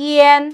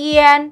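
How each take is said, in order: The two takes are said the same way.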